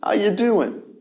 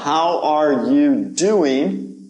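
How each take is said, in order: First: It is said quickly, with words run together. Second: It is said at a normal, careful pace.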